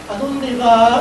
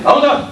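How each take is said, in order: First: Soft, gentle asking tone; soft, gentle question. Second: Sharp, heated ¿A dónde vas? a bit higher; ¿A dónde vas? con tono caliente. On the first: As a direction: ask it gently, no edge. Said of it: "Cuando están suaves nos dicen". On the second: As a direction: ask it with heat, accusing. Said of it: "cuando están calientes nos dicen". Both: Shown as a demonstration.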